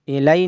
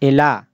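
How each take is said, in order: First: The word ends in an 'ai' sound. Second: The word ends in a long 'a' sound. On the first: The speaker calls it wrong. "इलाई नहीं पढ़ रहे हैं" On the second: The speaker calls it right. "या को अलिफ से चेंज करके पढ़ रहे हैं"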